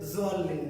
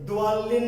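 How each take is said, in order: First: The first consonant is a plain z sound. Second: The first consonant is a plain d sound. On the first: "direct জোয়াল্লিন না" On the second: "direct দোয়াল্লিন না"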